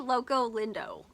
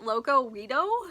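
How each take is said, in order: First: The second word is pronounced lindo. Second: The second word is pronounced weedo. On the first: The speaker calls it right. "It's actually" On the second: The speaker calls it wrong. "I mispronounced the name. Like, I totally butchered it"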